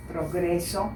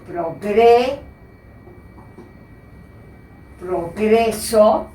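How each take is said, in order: First: Said in the usual way. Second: Progreso drawn out slowly and clearly; teacher dictating progreso slowly; slow careful reading. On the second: Shown as a demonstration. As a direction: read progreso very slowly so students catch every syllable. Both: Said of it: "que dice".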